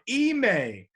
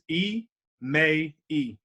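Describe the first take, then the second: First: The name is said with two syllables. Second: The name is said with three syllables. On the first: The speaker calls it wrong. "A lot of people are like" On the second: The speaker calls it right. "my first name is three syllables"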